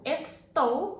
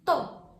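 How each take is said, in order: First: The verb is said in full as estou. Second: The verb is shortened to a single syllable. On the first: "estou becomes tô" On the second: "becomes tô"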